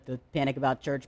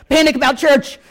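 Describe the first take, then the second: First: Said in the usual way. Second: "Panic" shouted high and loud; mock panic cry. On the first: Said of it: "maybe not in the". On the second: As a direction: yell "Panic about church!" in mock alarm. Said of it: "I'm like".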